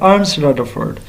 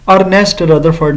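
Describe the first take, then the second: First: The first name is said as one syllable. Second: The first name is said as two syllables. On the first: The speaker calls it right. "ये लफ्ज़ है अर्नस्ट Rutherford" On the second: The speaker calls it wrong. "अर्नेस्ट Rutherford नहीं। अक्सर teachers भी इसको गलत pronounce करते हैं"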